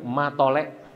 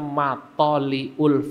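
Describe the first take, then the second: First: The name is said in a shortened form. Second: The name is said in its full form. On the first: "Orang Jawa bilang matolek" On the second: "namanya Matoliul Falah"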